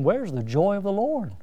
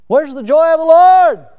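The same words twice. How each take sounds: First: Said in the usual way. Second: Loud, high cry from the pulpit; emphatic preaching shout. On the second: Real, not acted. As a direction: demand it of the whole congregation. Preacher repeats question at full force.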